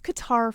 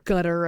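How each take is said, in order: First: It uses the older, Americanized pronunciation. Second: It uses the newer, currently adopted pronunciation. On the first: This is how the name was always said before. "It was Qatar forever" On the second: This is how the name is said now. "I guess is how we say it now"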